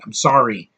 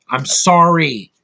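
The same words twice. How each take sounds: First: Said in the usual way. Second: "sorry" stretched out slowly; emphatic repeat. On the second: Real, not acted. Reviewer defending his taste in movies, drawn-out emphatic "sorry". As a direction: lean hard and long on "sorry".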